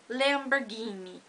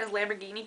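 First: Lamborghini rolled out with an Italian accent, every syllable savoured. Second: Said in the usual way. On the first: Shown as a demonstration. Vlogger showing off her Italian word in Italian accent. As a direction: say Lamborghini the Italian way, playful and drawn out. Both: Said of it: "well, with an Italian accent".

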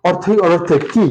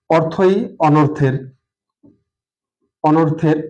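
First: "অর্থই অনর্থের কি" asked with a rise on "কি"; listener's question. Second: Slow "অর্থই অনর্থের", left hanging as if dots follow; left unfinished. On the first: Teacher voicing the listener's doubt, questioning. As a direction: ask it, lifting the final "কি". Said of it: "তার প্রশ্ন". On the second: Teacher dictating an incomplete sentence, left unfinished. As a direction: draw out "অর্থই অনর্থের", then stop short. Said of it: "এখানে আমি dot dot dot". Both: Shown as a demonstration.

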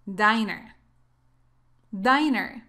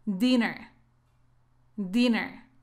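First: "Diner" with an "eye" sound in the first syllable; diner, long i. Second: "Dinner" with a short i in the first syllable. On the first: Teacher models the small-restaurant word, "Diner" with long i. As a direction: say "Diner" as DAI-ner. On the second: Teacher models the word for cena, short-i "Dinner". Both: Shown as a demonstration. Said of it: "la pronunciación es así".

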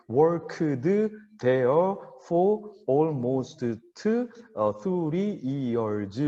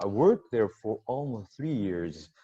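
First: Every word separate, "worked" as work-eu-deu and "three" as seu-ri; loud, syllable-by-syllable Korean learner English, "almost" ending in an added eu; Korean-style over-precision. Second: "worked there" linked, "worked" as one syllable wərkt; flowing natural rhythm. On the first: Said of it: "우리처럼 정확하게". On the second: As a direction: ride the rhythm through "almost three years" with no added vowels. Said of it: "이렇게 운율을 타듯이". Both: Shown as a demonstration.

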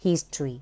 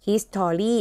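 First: "history" as HIS-tree, falling at the end; correct history. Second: "history" as his-tor-ree, every syllable full; spelling pronunciation. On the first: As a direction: read "history" in two syllables, HIS-tree. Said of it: "แต่อ่านว่า". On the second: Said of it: "เวลาเราเขียน เราเขียนอย่างเงี้ย". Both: Shown as a demonstration.

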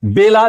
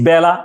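First: বেলা said "be-la" with a close "e"; spelling pronunciation of বেলা, "bay-la"; as written. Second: বেলা said "bæ-la" with an open "æ"; as pronounced. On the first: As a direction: keep the first vowel of বেলা a pure "e". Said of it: "লিখি এভাবে". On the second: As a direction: open the first vowel of বেলা, as in cat. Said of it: "কিন্তু উচ্চারণ করছি". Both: Shown as a demonstration.

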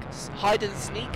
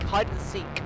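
First: "sneak" said with an n, like sneak; questioning "hide and sneak" with a snuck-in n; wrong word. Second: Said in the usual way. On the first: Real, not acted.

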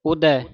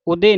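First: ਉਦੈ ending in an open "ai", as "udai"; correct pronunciation. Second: ਉਦੇ ending in a closed "e", as "ude", shown as the mistake; wrong pronunciation. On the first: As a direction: stress the "ai" of ਉਦੈ, dulavan sound. (ਉਦੈ ਦੁਲਾਵਾਂ ਨਾਲ ਉਚਾਰੋ) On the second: (ਗਲਤ ਉਚਾਰਨ ਉਦੇ) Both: Shown as a demonstration. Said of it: "ਉਦੇ ਨਹੀਂ ਕਹਿਣਾ".

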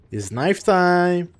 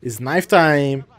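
First: Menacing slow hype; slower drawn out, higher finish. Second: Slow drawn out. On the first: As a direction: stretch it out slowly. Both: Pretend. Hyping knife round.

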